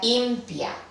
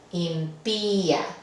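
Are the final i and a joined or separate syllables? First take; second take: joined; separate. First: The final i and a merge into one syllable. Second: The final i and a form separate syllables. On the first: The speaker calls it wrong. "aquí no queremos que esto diga impia" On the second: The speaker calls it right. "Queremos separar la I de la A"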